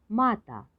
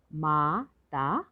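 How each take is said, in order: First: Said in the usual way. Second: माता slowly split as मा, ता; syllable by syllable. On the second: Shown as a demonstration. Teacher sounding out माता for learners, syllable by syllable. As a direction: stretch माता into separate syllables. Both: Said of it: "तो शब्द पढ़ते हैं".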